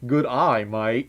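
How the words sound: It is said in a Southern-tinged Australian accent.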